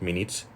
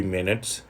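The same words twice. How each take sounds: First: "minutes" with an ee-like second vowel, like "min-eets"; tense ee sound in the end of "minutes"; mispronounced minutes. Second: "minutes" with a short, weak second vowel, like "MIN-uts"; short unstressed ending on "minutes"; target pronunciation of minutes. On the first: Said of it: "not minutes". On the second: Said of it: "It should be minutes". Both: Shown as a demonstration.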